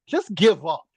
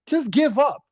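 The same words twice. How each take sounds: First: Said in the usual way. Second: Exasperated high. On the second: Acted. Louder higher repeat.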